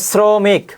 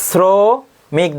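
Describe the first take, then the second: First: Said in the usual way. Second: শ্রমিক with a long hissed "s" at the start, syllables pulled apart; drawn-out S sound. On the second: Shown as a demonstration. Teacher showing students which sibilant to write, শ্রমিক stretched as "sssro-mik". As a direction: say শ্রমিক very slowly as "ssro... mik". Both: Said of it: "স এর মতো উচ্চারিত হয়".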